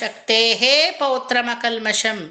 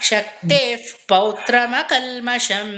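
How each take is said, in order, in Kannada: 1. ವಿಸರ್ಗವನ್ನು ಪೂರ್ಣ ಹೆಚ್ಚುವರಿ ಉಚ್ಚಾರಾಂಶವಾಗಿ ಉಚ್ಚರಿಸಲಾಗುತ್ತದೆ. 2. ವಿಸರ್ಗವು ಹಗುರವಾದ ಉಸಿರು; ಅದು ಮುಂದಿನ ಪದದೊಂದಿಗೆ ಸೇರಿಹೋಗುತ್ತದೆ. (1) "ಆ ಏ ಹೇ ಅಂತ ಹೋದ್ರೆ ಛಂದಸ್ಸು ಮೀರಿ ಹೊರಟೋಗುತ್ತೆ" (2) "ಫ್ ಅನ್ನೋದು ಅಲ್ಲಿ ಸೌಂಡ್ ಬರ್ಬೇಕು ಬಾಯಲ್ಲಿ"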